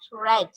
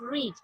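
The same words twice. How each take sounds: First: It is said with the past-participle pronunciation. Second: It is said with the present-form pronunciation. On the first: It is the third form of the verb. "if we are using as a third form, so we pronounce it read" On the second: It is the base form of the verb. "If we are using the read as a first form, so we pronounce read"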